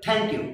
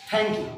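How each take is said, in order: First: "Thank you" in a British accent. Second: "Thank you" with a hard Bengali aspirated t; local pronunciation. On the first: Teacher contrasting British speakers with Bengalis, British accent. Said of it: "কিন্তু ব্রিটিশরা বলে". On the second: Teacher showing how we Bengalis say it, local hard th. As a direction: say "Thank you" the everyday Bangla way. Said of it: "আর আমরা বলি". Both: Shown as a demonstration.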